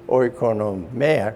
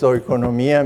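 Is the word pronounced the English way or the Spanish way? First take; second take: English; Spanish. First: The word is pronounced the English way. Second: The word is pronounced the Spanish way. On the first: "maybe in English" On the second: "In Spanish it's"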